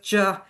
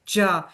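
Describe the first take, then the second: First: The words shrink to a single short syllable. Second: The words shrink to a single short syllable.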